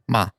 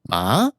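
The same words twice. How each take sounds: First: The syllable is light with no set pitch. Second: The pitch rises through the syllable. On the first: "There's no tone at all" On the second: "then there's a rising tone"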